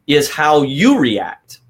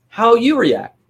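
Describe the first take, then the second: First: Slow, heavy weight on "you" in "is how you react"; slow it down and punch "you"; stress on YOU. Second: "How you react" repeated higher, "you" lifted; higher echo. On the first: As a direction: lean hard on "you", drawn out. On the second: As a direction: echo the phrase up high for emphasis. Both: Shown as a demonstration.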